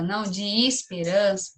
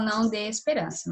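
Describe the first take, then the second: First: "de" said as "dji" before "esperança"; regional pronunciation. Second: "de" said as a clean "de" before "esperança"; clear "de" pronunciation. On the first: Teacher showing pupils the caipira way: "de" as "dji". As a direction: say "não de esperança" with a "dji" sound. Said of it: "tem pessoas que falam". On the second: Teacher showing pupils the other way: a clean "de". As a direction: say "não de esperança" with a crisp "de". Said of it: "e tem pessoas que falam". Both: Shown as a demonstration.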